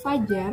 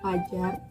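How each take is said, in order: First: The word begins with an f sound. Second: The word begins with a p sound. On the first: An educated speaker says it this way. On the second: An uneducated speaker says it this way.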